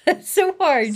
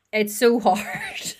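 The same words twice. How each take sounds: First: Higher, laughing repeat of it. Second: Slow sigh of effort. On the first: Guest laughing at how hard unlearning feelings is. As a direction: laugh it out in rueful agreement. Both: Real, not acted.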